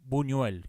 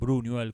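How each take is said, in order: First: The name starts with b with no r. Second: The name starts with b followed by r. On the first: The speaker calls it right. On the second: The speaker calls it wrong.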